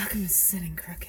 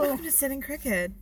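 First: Breathy whisper, much softer; soft spa whisper. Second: Soft, sultry spa host; slutty spa voice. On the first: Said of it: "Oh, breathy?". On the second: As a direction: purr it like a spa ad. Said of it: "it's like a slutty spa voice". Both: Pretend.

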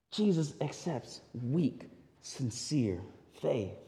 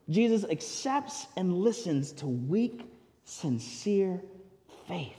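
First: "weak, sincere faith" dropped softer and drawn out slowly; slow soft emphasis. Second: Said in the usual way. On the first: Shown as a demonstration.

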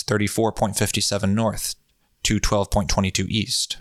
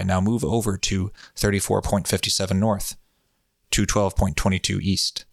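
First: Said in the usual way. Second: Steady, even hypnotic voice. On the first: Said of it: "the Bob voice is fun". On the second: Shown as a demonstration. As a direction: lull the listener with even tones. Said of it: "Bob hypnotic voice is fun".

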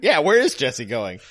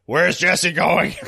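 First: "is" stressed, the rest at usual pitch. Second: Slow, stretched-out demand; Tran's question. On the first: Audience agreeing with Tran's question, "is" stressed. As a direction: echo the question, leaning on "is". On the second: Acting out Tran's question for the co-hosts, slow demand. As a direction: ask it drawn out, puzzled. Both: Retold or imitated.

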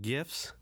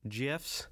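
First: "gifs" opening on a hard g sound; hard g at the start of "gifs". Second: "gifs" opening like the j in jam. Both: Shown as a demonstration. Tries two pronunciations of gifs.

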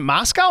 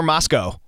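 First: "Moscow" with the second syllable like "cow"; Moscow rhyming with cow. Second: "Moscow" with the second syllable like "co"; Moscow ending in co. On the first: Host asks how the Idaho town is said, "Moscow" ending like "cow". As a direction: end "Moscow" on an ow sound. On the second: Host asks how the Idaho town is said, "Moscow" ending like "co". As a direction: end "Moscow" on a long o. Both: Shown as a demonstration. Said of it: "Is it Moscow or Moscow?".

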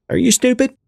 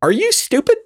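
First: Condescending voice. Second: Talking down, high and mocking; condescending voice. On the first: Acted. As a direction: talk down, pitched high. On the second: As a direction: ask it like they're dumb. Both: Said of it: "I'm asking in this condescending voice".

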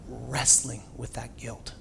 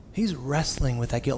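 First: Slow and much softer, weighed down; heavy, soft drawl. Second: Said in the usual way. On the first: Real, not acted. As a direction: let the guilt slow every word. Repeated phrase, second plainer.

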